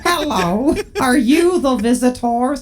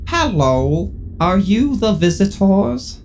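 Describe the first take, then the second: First: It is said in a higher voice. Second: It is said in a lower voice.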